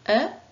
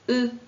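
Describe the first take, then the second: First: The vowel sounds like the one in fleur. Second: The vowel sounds like the one in feu. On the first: "E comme dans fleur" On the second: "E comme dans feu"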